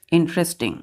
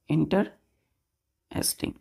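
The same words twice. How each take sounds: First: Said in the usual way. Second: "इंटरेस्टिंग" slowly as इंटर... एस्टिंग; syllable by syllable. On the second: Shown as a demonstration. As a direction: say "इंटरेस्टिंग" with a long pause after इंटर. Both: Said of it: "इसमें कितने syllable होंगे".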